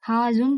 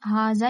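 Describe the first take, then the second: First: The word ends with an 'un' sound. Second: The word ends with an 'a' sound. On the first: The speaker calls it wrong. "हाजुन तो नहीं पढ़ सकते ना" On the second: The speaker calls it right. "हाजा ही पढ़ेंगे ना"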